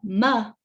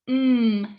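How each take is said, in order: First: The consonant ends with an added uh vowel. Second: The consonant is held with no added vowel. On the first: The speaker calls it wrong. "I don't say that it's the m sound" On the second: The speaker calls it right. "the letter M is represented by the mm sound"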